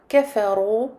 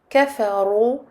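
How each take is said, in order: Both takes have the same delivery.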